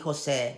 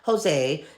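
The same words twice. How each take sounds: First: The name has a Spanish pronunciation. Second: The name has an English pronunciation. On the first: The speaker calls it right. "you can call me Jose" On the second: The speaker calls it wrong. "not Jose"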